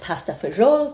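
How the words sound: It is said with an exaggerated Italian accent. "the uh, embarrassing Italian accent that I just did"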